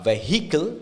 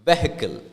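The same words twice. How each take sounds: First: The vowel after the h is fully pronounced. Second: The vowel after the h is swallowed. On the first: The speaker calls it wrong. "It's not vehicle" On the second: The speaker calls it right. "it's vehicle"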